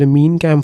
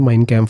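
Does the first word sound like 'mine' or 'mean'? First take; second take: mean; mine. First: The first word is said like 'mean'. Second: The first word is said like 'mine'. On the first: "ചിലർ മീൻ ക്യാമ്പ് എന്നും പറയും" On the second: "American ഇംഗ്ലീഷിൽ ഇതിങ്ങനെയാണ് പ്രൊനൗൺസ് ചെയ്യുന്നത്"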